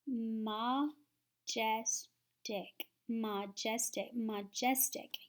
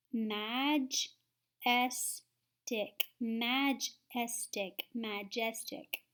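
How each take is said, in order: First: Majestic with schwa, muh-jestic, slowly; schwa try. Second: Majestic sounded out slowly, long A; slow syllable blending. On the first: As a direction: say majestic with a weak first vowel. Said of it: "I'm gonna try the swash sound". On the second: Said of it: "So that would be". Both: Shown as a demonstration.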